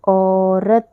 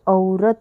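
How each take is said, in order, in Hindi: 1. पहला स्वर एक सरल ओ जैसा स्वर है। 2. पहला स्वर 'au' की तरह सरकता है। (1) "यहाँ पर हम इसे क्या पढ़ रहे हैं ओ" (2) "इसको अगर हम औ बोलेंगे तो ये औरत हो जाएगा"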